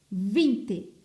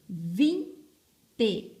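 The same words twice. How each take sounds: First: "Vinte" joined up, with a firm held v; whole word, emphatic. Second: "Vinte" split into vin, pause, te; syllable by syllable. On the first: Teacher naming the next picture, "Vinte" whole and emphatic. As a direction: say "Vinte" in one piece, louder. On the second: Teacher separating first and second sound, "Vinte" broken in two. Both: Shown as a demonstration. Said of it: "A segunda sílaba".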